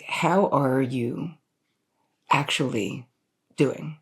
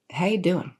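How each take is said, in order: First: Slow, deliberate, with pauses between phrases; weighted, unhurried, earnest question; sincere check-in. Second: Breezy, run-together greeting; higher-pitched, offhand how-you-doing; casual greeting. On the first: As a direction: ask it slowly and really mean it. Same question asked in earnest. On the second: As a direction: toss it off as a quick, casual check-in. Casual greeting, then meant in earnest. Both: Shown as a demonstration.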